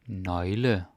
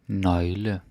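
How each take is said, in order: Both takes have the same delivery.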